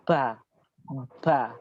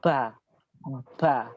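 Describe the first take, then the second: First: The syllables are released with a strong puff of air. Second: The same.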